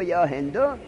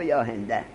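First: The name ends with a u vowel. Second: The name ends with an a vowel. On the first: "به زمش بگو" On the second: "به فتحش بگو"

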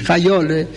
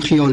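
First: The first syllable has the vowel 'a', like sahab. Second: The first syllable has the vowel 'i', not 'a'. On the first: "لفظ صحیحش خیاله" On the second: "اجازه بفرمایید که ما خیال بگیم"

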